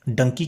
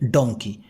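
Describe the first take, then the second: First: It is said in a British accent, 'dunkey'. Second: It is said in an American accent, 'dawnkey'.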